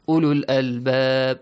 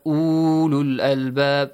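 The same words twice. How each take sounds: First: The vowel in ulul is kept short. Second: The vowel in ulul is drawn out long. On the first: The speaker calls it right. "No, ulul albab" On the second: The speaker calls it wrong. "Not long vowel. Not ulul albab"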